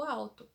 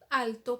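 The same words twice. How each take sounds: First: Alto said as "auto"; Portuguese L as U. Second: Alto with a clear tongue-tip L; Spanish-style alto, L touched clearly. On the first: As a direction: turn the L of alto into a U glide. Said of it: "usa o som dele como U". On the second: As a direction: sound the L fully in alto, not as U. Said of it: "como eu falo no espanhol". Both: Shown as a demonstration.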